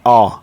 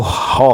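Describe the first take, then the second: First: The syllable starts with a vowel sound. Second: The syllable starts with an h sound. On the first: The speaker calls it right. "ओ से होता है, आ" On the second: The speaker calls it wrong. "अगर हम एच को यहाँ पे हॉ से पढ़ें तो हॉ हो जाएगा ... जो कि प्रोनाउंसिएशन गलत है"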